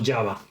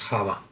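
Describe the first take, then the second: First: The word is said with English pronunciation. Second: The word is said with Spanish pronunciation. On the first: "o en inglés" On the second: "según lo pronunciemos en castellano"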